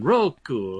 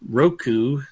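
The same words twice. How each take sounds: First: The word is said in an Italian accent. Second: The word is said in a plain accent. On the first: "Or is it Italian?" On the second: "isn't that how we've decided to pronounce that one?"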